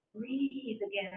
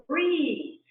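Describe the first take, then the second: First: More gently. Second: Sharp, loud, higher command to breathe; yelling at herself. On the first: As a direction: ease it out kindly. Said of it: "I say more gently". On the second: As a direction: bark it at yourself, impatient. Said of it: "I'm practically yelling at myself". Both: Acted.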